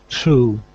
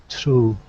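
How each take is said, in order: The two takes are said the same way.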